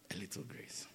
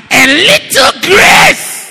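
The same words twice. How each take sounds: First: A bare whisper, fading to nothing. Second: Slow rising shout, much higher and louder; shouted, drawn out. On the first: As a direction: breathe it almost silently. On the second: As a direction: stretch the word grace out in a shout. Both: Shown as a demonstration. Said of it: "That is what we all need".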